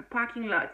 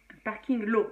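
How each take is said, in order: First: "parking lot" in American English, final t sounded; "parking lot" as an English word, not French; English pronunciation. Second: "parking lot" said the French way, final t silent; "parking lot" Frenchified, ending on an open o; French pronunciation. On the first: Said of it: "c'est vraiment comme ça que l'on dit". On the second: French reading of English word. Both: Shown as a demonstration.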